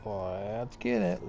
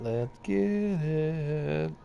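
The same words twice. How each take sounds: First: Said in the usual way. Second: Drawn-out hype. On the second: Real, not acted. Streamer hyping himself before the race, slow stretched-out chant. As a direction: stretch every word out very slowly.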